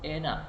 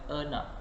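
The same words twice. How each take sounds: First: The first vowel is a clear e sound. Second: The first vowel is a weak schwa sound. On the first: The speaker calls it right. "iaitu enak" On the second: The speaker calls it wrong. "bukan enak"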